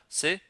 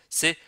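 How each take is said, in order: The two takes are said the same way.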